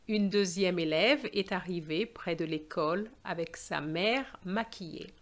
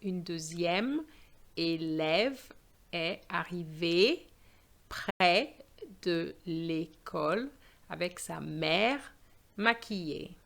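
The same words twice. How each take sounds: First: It is read fluently with a natural intonation. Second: It is read carefully, stressing each accented sound.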